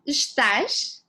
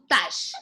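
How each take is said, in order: First: The full word is said with its first syllable. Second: The first syllable is dropped, leaving one syllable. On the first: "the word estás" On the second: "we chop it off to tash"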